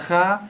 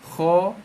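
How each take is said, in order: First: The vowel sounds like a plain open 'a'. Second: The vowel sounds rounded, like 'o'. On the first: The speaker calls it wrong. "bukan kha" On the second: The speaker calls it right. "kho bukan kha"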